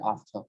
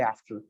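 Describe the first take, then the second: First: British "ahfta", long A, silent R; British accent. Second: American "after" with ae and a clear R; American accent. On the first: Teacher contrasting with American, British "ahfta". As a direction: drop the R in after, British style. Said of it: "They will not pronounce the R". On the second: Teacher showing American speech, "aefter" with R. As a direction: sound the final R of after, American style. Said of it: "They roll the R". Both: Shown as a demonstration.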